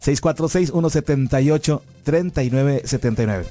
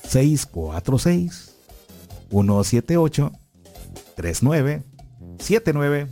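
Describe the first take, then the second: First: The number is said quickly. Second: The number is said slowly.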